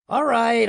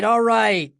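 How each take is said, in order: First: High, loud shout. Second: High, loud repeated shout; shouting again. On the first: Studio boss shouting across the screening room, loud and high. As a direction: bark it out to stop the film. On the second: Boss repeating his shout at the room, high and loud. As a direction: keep yelling to stop the film. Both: A narrator's reading. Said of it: "Edelman shouted".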